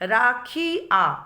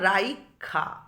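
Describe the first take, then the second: First: The i sound comes after the kh. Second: The i sound comes before the kh. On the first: "ক্ষয়ের পরই ছিল" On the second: "ক্ষয়ের আগে এসে গেছে হর্ষইকারটা"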